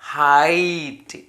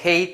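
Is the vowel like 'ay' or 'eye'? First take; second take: eye; ay. First: The vowel sounds like 'eye'. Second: The vowel sounds like 'ay'. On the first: The speaker calls it right. "ഹൈറ്റ് എന്നാണ് വായിക്കുക" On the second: The speaker calls it wrong. "ഹെയ്റ്റ് എന്ന് വായിക്കില്ല"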